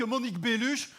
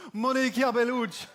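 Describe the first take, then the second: First: Unglamorous Belgian French accent; deflating Belgian-accented version of the name. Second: Savoured, lilting Italian accent; hammed-up sexy Italian accent. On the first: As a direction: drop BELLUCHE in a plain Belgian accent. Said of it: "notre accent". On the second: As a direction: roll out MONICA BELLUCCI like an Italian. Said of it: "l'accent italien, ça, ça fait rêver". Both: Shown as a demonstration.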